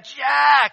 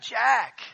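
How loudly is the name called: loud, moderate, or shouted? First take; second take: shouted; loud. First: The name is yelled at full volume. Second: The name is called out quite loudly. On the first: "I really yell it" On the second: "So I sort of call out quite loudly"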